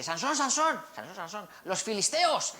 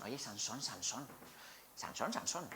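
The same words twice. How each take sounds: First: High, urgent warning cry; alarmed call. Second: Quiet, wheedling call of his name; soft coaxing call. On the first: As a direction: sound the alarm, higher pitched. Dalila warns of the Philistines. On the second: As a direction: coax him gently, almost whispering. Dalila coaxing Sansón nightly. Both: Acted.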